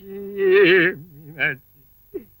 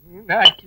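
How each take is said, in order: First: Stretched-out mournful call of her name, rising; crying out Meenakshi slowly and sadly; long wailing call. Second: Said in the usual way. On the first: Acted. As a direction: draw the name out as if grieving. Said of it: "ஏன்னே அழுகுறீங்க?".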